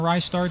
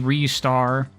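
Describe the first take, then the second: First: The first syllable sounds like 'rye'. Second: The first syllable sounds like 'ree'. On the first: The speaker calls it wrong. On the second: The speaker calls it right.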